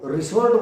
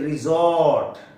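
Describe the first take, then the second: First: The middle consonant sounds like s. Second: The middle consonant sounds like z. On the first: The speaker calls it wrong. "नहीं होता रिसोर्ट" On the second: The speaker calls it right. "ये रिजॉर्ट"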